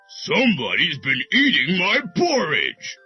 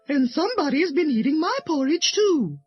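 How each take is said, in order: First: It is said in a deep, rough voice. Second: It is said in a medium-pitched voice.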